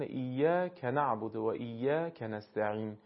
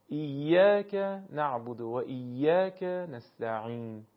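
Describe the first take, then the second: First: "ایاک نعبد" with the ک running into the next word; wrongly joined words. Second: Slow "ایاک نعبد", beat on "yaa", kaf cut from the next word; stress on long alif. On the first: Teacher imitating a common mistake in "ایاک نعبد", words run together. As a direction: attach the "ka" of "ایاک" to "نعبد" and "نستعین". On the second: Teacher showing correct "ایاک نعبد", stressed alif, words kept apart. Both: Shown as a demonstration.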